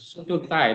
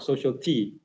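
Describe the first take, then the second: First: The second word sounds like tie. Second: The second word sounds like tea. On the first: The speaker calls it right. "It's a social tie" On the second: The speaker calls it wrong. "not social tea"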